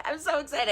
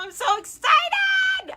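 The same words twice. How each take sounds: First: Said in the usual way. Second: Very high, slow squealed excitement; excited squeal. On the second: Real, not acted. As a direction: squeal it out with real delight.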